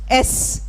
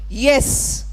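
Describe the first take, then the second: First: The word starts without a y sound. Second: The word starts with a clear y sound. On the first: The speaker calls it wrong. "so often mispronounced as S" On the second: The speaker calls it right. "a simple word like yes"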